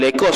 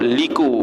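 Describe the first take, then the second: First: The word is said as lekor. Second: The word is said as liku. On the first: The speaker calls it wrong. "Bukan lekor sebenarnya baca tu" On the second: The speaker calls it right.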